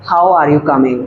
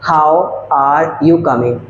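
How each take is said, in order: First: Said in the usual way. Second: Slow, word by word, with pauses between words; slow dictation. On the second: Shown as a demonstration. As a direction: spell out the sentence slowly for the class. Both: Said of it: "तो इसको बोलने का जो तरीका होगा".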